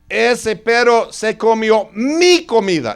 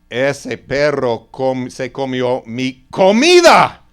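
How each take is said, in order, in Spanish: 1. El énfasis cae en la palabra mi. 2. El énfasis cae en la palabra comida. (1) "y no la suya" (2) "no mis zapatos"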